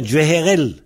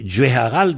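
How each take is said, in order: First: "Djeherel" ending in -erel with è vowels; a turned to è. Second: "Djeharal" ending in -aral with open a vowels; original a vowels. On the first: Teacher showing the vowel shift, "Djeherel" with final -erel. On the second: Teacher giving the base form, "Djeharal" with final -aral. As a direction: keep both a vowels in "Djeharal". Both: Shown as a demonstration. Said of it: "le A devient E souvent".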